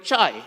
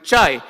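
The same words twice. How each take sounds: First: Chai said as Indian tea word, ch then long ai; saying chai. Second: Chai repeated with falling tune, ch and long ai; saying chai again. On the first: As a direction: give chai with a clear ch and long ai. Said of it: "we call it chai". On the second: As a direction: land chai firmly with a falling close. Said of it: "Here we call it chai". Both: Shown as a demonstration.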